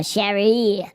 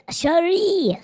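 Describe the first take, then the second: First: Said in the usual way. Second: A high breathy whisper of the name. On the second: Acted.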